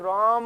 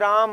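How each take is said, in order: First: The vowel is drawn out long, like calling. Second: The word is said short and plain.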